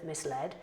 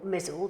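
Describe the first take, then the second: First: It is said as mis plus led, two clear parts. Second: It is said as one syllable block, rhyming with puzzled. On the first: The speaker calls it right. "as soon as I discovered it was misled" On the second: The speaker calls it wrong. "I've always mispronounced"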